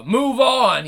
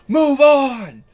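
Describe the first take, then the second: First: Loud, raised "Move on!"; quoting the singer's loud "Move on!"; loud call. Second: Full shout of "Move on!", much higher and louder; imitating the singer shouting "Move on!". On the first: Retold or imitated. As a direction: call out "Move on!" a little higher and louder. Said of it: "He says it real loudly". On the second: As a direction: belt "Move on!" like the singer does. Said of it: "He shouts".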